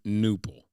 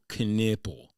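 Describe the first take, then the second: First: The word begins with an N sound, no K. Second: The word begins with an audible K sound. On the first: "as opposed to noople" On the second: "they're pronouncing U E P P E L knipple"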